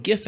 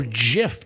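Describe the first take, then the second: First: "gif" with a hard g, as in gift; "gif" starting like go; hard-g pronunciation. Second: "gif" with a soft g, said jiff; "gif" starting like jam; soft-g pronunciation. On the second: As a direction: say "gif" like the peanut butter, jiff. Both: Shown as a demonstration. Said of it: "depending on who you're talking to".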